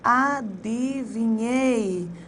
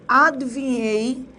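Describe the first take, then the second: First: The i after the d is pronounced. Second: The i after the d is dropped. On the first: The speaker calls it right. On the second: The speaker calls it wrong.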